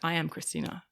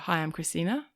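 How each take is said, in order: First: It sounds grounded and sure, like a statement. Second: It sounds unsure, rising like a question.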